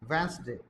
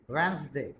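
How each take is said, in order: Both takes have the same delivery.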